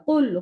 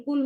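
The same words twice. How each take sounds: First: Arabic qul with qaf; qaf sound. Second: Plain k in কুল, not the throaty q; Arabic kul with kaf; kaf sound. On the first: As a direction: start কুল from the back of the throat. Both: Shown as a demonstration. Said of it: "কাফ দিয়ে বললে কুল".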